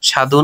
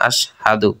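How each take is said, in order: First: It starts directly with the consonant, no vowel. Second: It starts with an 'a' vowel before the consonant. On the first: The speaker calls it wrong. "সাধু বলা যাবে না" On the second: The speaker calls it right. "শুদ্ধ করে পড়ব আশহাদু"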